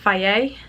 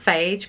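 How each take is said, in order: First: It ends in a vowel, with no 'j'. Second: It is read as spelled, ending in 'j'. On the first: The speaker calls it right. "but I think you pronounce it Faye" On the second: The speaker calls it wrong.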